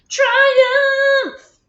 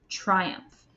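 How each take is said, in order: First: The word is said loudly and excitedly. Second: The word is said in a plain, normal voice. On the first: "Now say it like you just had a triumph" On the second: "Say the word triumph with me"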